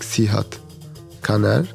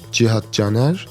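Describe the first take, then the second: First: The surname starts with a hard K sound. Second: The surname starts with a soft J sound. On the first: The name is misread from its spelling. The speaker calls it wrong. "when they uh, see like the the letter C, they call me like" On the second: The name is said as in its own language. The speaker calls it right. "in Turkish, we use like C to pronounce like G. ... the true pronunciation"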